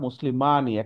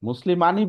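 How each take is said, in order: First: The middle vowel is lengthened, held long. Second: The middle vowel is short, without lengthening. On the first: The speaker calls it right. "একটা এখানে একটা মাদ আছে" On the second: The speaker calls it wrong. "মুসলিমানি বলবেন না"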